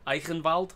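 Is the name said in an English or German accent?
German. It is said in a slight German accent.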